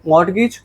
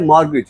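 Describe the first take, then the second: First: A t sound is heard in the middle. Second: No t sound is heard in the middle. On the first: The speaker calls it wrong. "अगर एक normal इंसान वाली बात करें, तुम इसको read कैसे करते?" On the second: The speaker calls it right. "टी silent है"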